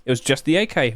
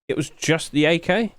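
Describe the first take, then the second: First: "It was just the A K." falling flat to close; a statement falling on "A K"; settled statement. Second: "It was just the A K?" rising at the end, checking; a question rising on "A K"; surprised question. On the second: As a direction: ask "It was just the A K?" in disbelief. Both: Shown as a demonstration. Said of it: "Wow, okay".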